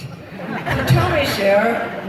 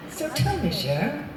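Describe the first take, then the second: First: Drawn-out host line. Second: Soft, teasing host voice lightly imitated; lightly voiced host drawing her in. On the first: Retold or imitated. Retelling [name]'s question to [name], slow and teasing. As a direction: stretch "tell me" slowly, savoring it. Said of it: "but I like it". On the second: [name]'s producer-style teasing question to [name], lightly mocked. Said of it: "he didn't do this, but I like it".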